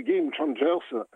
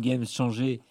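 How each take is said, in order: First: « Game Changers » dit lentement à l'anglaise, gueïme tchéïndjeurz; détacher « Game Changers » avec l'anglais, lentement; prononcé à l'anglaise. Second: « Game Changers » à la française, gamme chanjé; prononcé à la française. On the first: Titre anglais dans une chronique. (« Game Changers » en anglais, posé et lent) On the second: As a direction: franciser « Game Changers » sans effort d'anglais. Titre anglais dit par l'animateur. (« Game Changers » avec un accent français) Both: Real, not acted.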